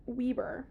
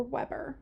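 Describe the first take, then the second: First: "Weber" with first syllable like "wee"; WEE-ber for "Weber"; long-E pronunciation. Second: "Weber" with first syllable like "web"; short-E pronunciation. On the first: Gives two ways of saying name. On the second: Offers alternative way of saying name. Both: Shown as a demonstration.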